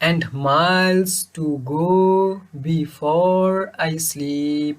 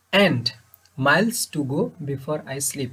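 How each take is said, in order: First: Very slow, "miles", "go", "before", "sleep" stretched long; short "and", long "miles", short "to", long "go", and so on to "sleep"; iambic reading. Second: Said in the usual way. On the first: Shown as a demonstration. ("miles", "go", "before", "sleep" টান দিয়ে) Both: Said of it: "তৃতীয় line এভাবে শুরু করে".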